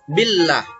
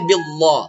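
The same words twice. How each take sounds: First: The l sound is light and thin. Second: The l sound is dark and heavy. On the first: The speaker calls it right. "nama Allah itu dibaca tipis" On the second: The speaker calls it wrong. "tidak boleh billah"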